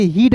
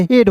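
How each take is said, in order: First: हीड with a long "ee" vowel; wrong pronunciation. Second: हेड with an "e" vowel; correct pronunciation. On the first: Teacher showing how "ea" is not read here, हीड with "ee". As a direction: say हीड like English "heed". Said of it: "हीड नहीं होता है". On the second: Teacher correcting the "ea" sound for students, हेड with "e". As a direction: say हेड like English "head", no "ee". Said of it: "हेड होता है". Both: Shown as a demonstration.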